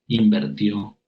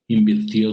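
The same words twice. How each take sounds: First: Invirtió said as inver-tió, with e; the incorrect invertió, e in the second syllable; mispronounced Invirtió as invertió; wrong form invertió. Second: Invirtió with a clear i, in-vir-tió; correct invirtió. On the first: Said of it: "no se dice". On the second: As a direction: say Invirtió properly, vir not ver. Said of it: "se dice". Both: Shown as a demonstration.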